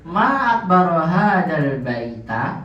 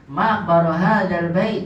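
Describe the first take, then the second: First: "baita" with a rising end; slow read with "akbaro" kept; wrong ending. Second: "akbaru" and "bait" ending in sukun; better version. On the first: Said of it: "Ya, itu udah salah". (contoh salah diucapkan "akbaro") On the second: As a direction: cut "bait" short with no vowel. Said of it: "lebih bagusnya sebenarnya disukunkan". (ucapan yang lebih baik "bait" disukunkan) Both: Shown as a demonstration.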